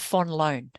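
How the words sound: The surname is said with Dutch pronunciation. "if you pronounce it like a Dutch person"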